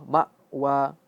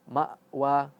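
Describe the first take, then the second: No difference in how they are said.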